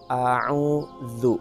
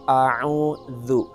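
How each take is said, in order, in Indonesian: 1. Konsonan tengahnya adalah bunyi th lembut. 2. Konsonan tengahnya adalah bunyi th lembut.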